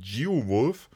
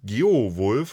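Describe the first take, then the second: First: The name is pronounced the English way. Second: The name is pronounced the German way.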